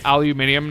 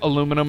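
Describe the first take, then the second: First: It is said in a British way. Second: It is said in an American way. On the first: This is the way picked up from British speakers. "I have been infected by the Brits" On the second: This is the speaker's former way. "I don't say aluminum anymore"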